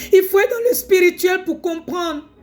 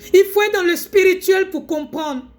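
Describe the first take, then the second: No difference in how they are said.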